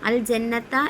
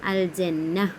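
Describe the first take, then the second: First: The word ends with a t sound and vowel. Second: The word ends with a soft h sound. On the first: This is the full written form of the word. "അൽ ജന്നത്ത എന്നാണ് കൊടുത്തിരിക്കുന്നതെങ്കിലും" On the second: The reader stops at the end of the word. "ഒരു ഹ് സൗണ്ടാണ് വരുന്നത് താന് പകരം"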